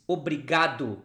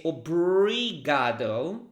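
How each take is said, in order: First: Obrigado with the final o as a short u; obrigado, last vowel u; Brazilian obrigado. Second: Obrigado with an English final oh; English-accented obrigado. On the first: Shown as a demonstration. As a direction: model obrigado ending in oo, obrigadu. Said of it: "this O at the end is not". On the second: Retold or imitated. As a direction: imitate a learner saying obrigado with an English oh sound. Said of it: "if your first language ... English".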